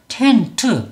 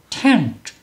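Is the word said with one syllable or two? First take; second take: two; one. First: It is said as two syllables, ending in a vowel. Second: It is said as one syllable, ending in a consonant. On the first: The speaker calls it wrong. "한글처럼 소리를 내면 tent, tent 요게 이파장이죠" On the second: The speaker calls it right. "영어 발음은 텐트가 아니라 ten, tent, tent 이렇게 소리를 내야"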